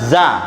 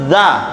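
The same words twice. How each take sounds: First: The consonant is a plain buzzing 'z' sound. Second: The consonant is a voiced 'th' between the teeth. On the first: The speaker calls it wrong. "bukan za" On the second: The speaker calls it right. "itu za"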